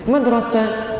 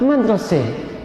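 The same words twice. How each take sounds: First: The final vowel is an open 'a' sound. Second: The final vowel shifts toward an 'e' sound.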